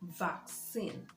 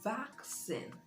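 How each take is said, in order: First: The stress is on the second syllable. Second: The stress is on the first syllable. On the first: The speaker calls it wrong. "I hear a lot of people pronounce this word as" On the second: The speaker calls it right. "The stress is on the first syllable"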